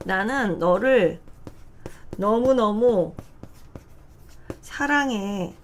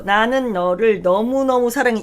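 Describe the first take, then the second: First: Each word set apart by long pauses; slow word by word. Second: Said in the usual way. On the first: Shown as a demonstration. Teacher reading word by word to show slow reading. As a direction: read it out one slow chunk at a time. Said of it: "두 개 동시에 보이시죠". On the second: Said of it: "이렇게 안, 안 읽죠".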